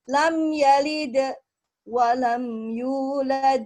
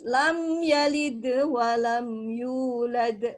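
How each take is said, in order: First: There is a pause between the two phrases. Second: The phrases run together without any pause. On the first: The speaker calls it wrong. "itu salah karena dia ada jeda" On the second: The speaker calls it right. "jadi harus"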